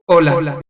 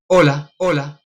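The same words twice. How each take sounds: First: The repeat blends into the word without a gap. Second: The word repeats after a clearly separate gap. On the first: The reflecting surface is less than seventeen metres away. "si estoy a menos de diecisiete metros" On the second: The reflecting surface is more than seventeen metres away. "Cuando yo lo hago a más de diecisiete metros"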